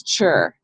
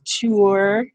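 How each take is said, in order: First: "chur" with a ch and a short er, pitched low; everyday pronunciation. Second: "ture" with a plain T, like "toor"; spelling pronunciation. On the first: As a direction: say "chur" low, like the end of nature. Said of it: "It says". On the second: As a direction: sound out "ture" as written, without ch. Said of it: "None of us says". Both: Shown as a demonstration.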